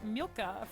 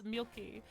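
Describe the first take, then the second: First: The name ends in an 'ah' sound. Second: The name ends in an 'ee' sound. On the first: The speaker calls it wrong. "heard me say Milka for the last like several weeks" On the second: The speaker calls it right. "It's Milky, or kind of like that"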